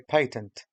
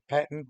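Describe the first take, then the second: First: The word is said with a non-American pronunciation. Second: The word is said with an American pronunciation. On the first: "but I prefer to say patent" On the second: "because the Americans say patent"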